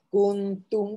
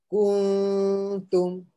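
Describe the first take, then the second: First: The n is short with no nasal hum. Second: The n is held with a long nasal hum. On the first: The speaker calls it wrong. "Jangan jadi kuntum pula" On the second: The speaker calls it right. "So dengunglah"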